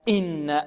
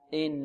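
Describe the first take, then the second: First: The opening glottal stop is pressed hard and forced. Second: The opening glottal stop is light and effortless. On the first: The speaker calls it wrong. "يتكلف الهمزة في قراءته ويضغط عليها أكثر من اللازم" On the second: The speaker calls it right. "يأتي بها سلسة سهلة"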